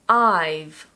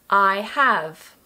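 First: It is said as one contracted syllable. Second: It is said as two full words.

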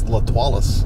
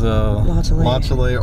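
First: The name is said as La-twa-lee. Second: The name is said as La-shell. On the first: This is the form used in one particular parish. "in a Boyle's parish, it's La Twalis" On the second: This is the usual local form. "As Lachele"

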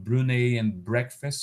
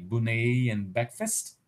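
First: The r after the b is pronounced. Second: The r after the b is dropped. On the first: "omission of the ra in cluster bra" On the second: "so then they would say Brunei and breakfast"

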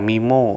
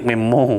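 First: The first syllable is a long 'mee' sound. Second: The first syllable is a short closed 'mem' sound. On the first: This is how the word is properly read. "มันอ่านว่ามีโม" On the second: This is the speaker's own habitual way of saying it. "ผมเรียกเมมโม"

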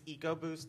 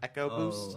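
First: The word begins with a long 'ee' sound. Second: The word begins with a short 'eh' sound. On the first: The speaker calls it right. "it's EcoBoost" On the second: The speaker calls it wrong. "not EchoBoost"

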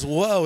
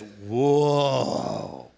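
First: It is a short, plain exclamation. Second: It is drawn out with a lingering, suggestive tone. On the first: A passing notice of an attractive person. "it's not just whoa" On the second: An intentional, lustful gaze. "intentional and repeated gazing with a purpose of lusting"

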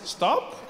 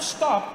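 First: It is said as a gentle suggestion. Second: It is said as a firm command.

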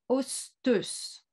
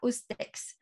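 First: The word ends with an 'us' sound. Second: The word ends with a 'ks' sound. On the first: The speaker calls it right. "ça se prononce Osteus" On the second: The speaker calls it wrong. "ça ne se prononce absolument pas Ostex"

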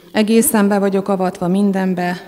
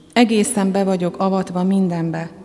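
No difference in how they are said.

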